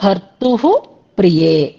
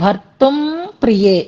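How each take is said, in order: First: No m sound ends the first word. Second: An m sound ends the first word. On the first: The speaker calls it right. "అక్కడ విసర్గలు ఉంటాయన్నమాట" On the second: The speaker calls it wrong. "భర్తుం కాదు"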